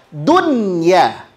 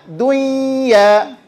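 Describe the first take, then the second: First: The n is pronounced clearly before the y. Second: The n is merged nasally into the y. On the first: The speaker calls it right. "maka di sini dia dibaca dunya" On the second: The speaker calls it wrong. "Nggak boleh dibaca dunya"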